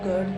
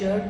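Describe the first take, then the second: First: The word begins with a g sound. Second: The word begins with a j sound. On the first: "कुछ लोग गर्ड pronounce करते हैं" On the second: "कुछ लोग जर्ड pronounce करते हैं"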